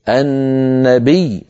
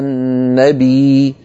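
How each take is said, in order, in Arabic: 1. يُنطق صوت الياء بالضغط مع تشديد واضح. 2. الحركة الأخيرة تُمدّ مدًّا طبيعيًا فقط دون ضغط. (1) "فنضغط على صوت الياء" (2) "ولا نقول على النبي، لا نمدها مدا طبيعيا هكذا"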